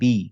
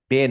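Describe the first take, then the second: First: The syllable is said with an 'i' vowel. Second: The syllable is said with an 'e' vowel. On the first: The speaker calls it right. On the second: The speaker calls it wrong. "বে না"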